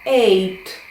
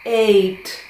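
No difference in how they are said.

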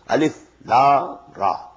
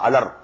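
First: Each letter name is said separately. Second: The letters are run together as one word. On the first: The speaker calls it right. "These are pronounced separately" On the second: The speaker calls it wrong.

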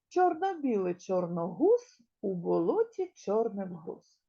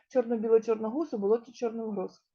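First: It is said at a slow, steady pace. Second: It is said at the fastest pace.

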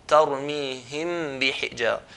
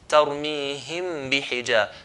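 No difference in how they are said.

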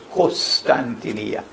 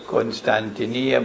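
First: The first syllable sounds like kos. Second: The first syllable sounds like kun. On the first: This is how it is said in Arabic. "in Arabic they pronounce it as Constantinia. Kos, not Kun" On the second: This form is closer to the original name. "I pronounce it as Constantinia"

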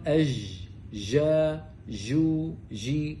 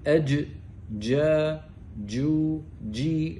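First: The j sound flows without a full stop. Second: The j sound starts with a full stop. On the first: The speaker calls it wrong. "عيبها أنها ليست محبوسة لكن مكانها صحيح" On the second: The speaker calls it right. "صوابها أن نحبس الصوت"

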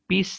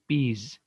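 First: The word ends with an s sound. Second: The word ends with a z sound. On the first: The speaker calls it wrong. "पीस नाही म्हणायचं" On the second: The speaker calls it right. "त्याचा उच्चार होतो पीज"

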